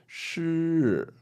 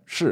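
First: The syllable is slowed and drawn out. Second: The syllable is said quickly and short. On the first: "if I was to slow that down, it would sound something like this" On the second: "If I say it quickly, you can't really notice it"

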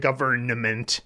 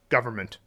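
First: The N before the M is clearly pronounced. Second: The N before the M is dropped. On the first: "You don't say government" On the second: "But you just say environment, government"

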